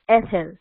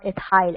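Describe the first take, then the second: First: It is said in the American way. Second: It is said in a non-American way. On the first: The speaker calls it right. "correct American pronunciation" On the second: The speaker calls it wrong. "It's not ethyl"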